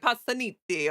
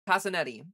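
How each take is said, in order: First: It is said with a thick Italian accent. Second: It is said with an American accent. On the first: This is how native Italians would say it. "there'd be like a really thick accent" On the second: This is the family's adapted pronunciation. "we sort of like Americanized the pronunciation"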